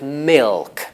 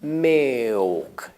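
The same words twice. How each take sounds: First: The L is pronounced as a clear consonant. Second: The L sounds like a vowel, O or U. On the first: "instead of milk" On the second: "It's becoming a vowel sort of like O or U"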